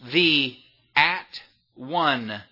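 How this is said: The word is broken into three separate parts.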